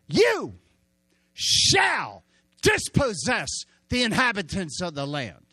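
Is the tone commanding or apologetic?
commanding. It is said as a firm command.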